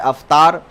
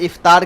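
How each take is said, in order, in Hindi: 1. पहला स्वर 'a' की आवाज़ है। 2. पहला स्वर 'i' की आवाज़ है। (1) "हरकत व सुकून की गलती" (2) "इफ्तार के बजाय"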